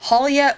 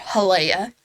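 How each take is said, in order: First: "Halia" as HAL-ya, stress up front; "Halia" ending in a quick "-ya", no "ay"; pronunciation HAL-ya. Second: "Halea" as huh-LAY-uh, stress on LAY; "Halea" in three syllables, middle rhyming with "day"; pronunciation huh-LAY-uh. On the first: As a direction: offer "Halia" with the first syllable stressed. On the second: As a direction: offer "Halea" with a long "ay" in the middle. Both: Shown as a demonstration. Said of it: "let me know how you guys actually pronounce it".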